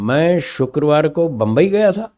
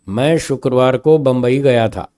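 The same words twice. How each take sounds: First: The word Bombay gets a changed, emphasized tone. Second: It is said in a plain, even tone. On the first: "Bombay शब्द का स्वर बदल दिया" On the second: "ये simple स्वर में एक सिंपल स्टेटमेंट है"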